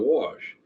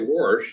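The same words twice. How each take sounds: First: It has a standard, plain pronunciation. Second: It has the speaker's regional dialect pronunciation. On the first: "instead of wash" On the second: "why do you say wash"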